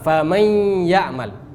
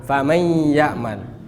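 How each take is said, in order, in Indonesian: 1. Bunyi gabungan itu membawa dengung yang ditahan. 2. Bunyi gabungan itu membawa dengung yang ditahan.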